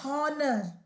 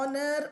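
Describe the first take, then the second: First: The word begins with an h sound. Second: The word begins directly with a vowel sound. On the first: The speaker calls it wrong. "I don't say ஹானர்" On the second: The speaker calls it right. "Silent ஹெச்"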